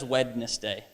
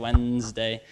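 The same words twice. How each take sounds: First: The D and middle E are pronounced. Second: The D and middle E are silent. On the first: The speaker calls it wrong. "I don't think anyone says Wednesday" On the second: The speaker calls it right. "I say Wednesday"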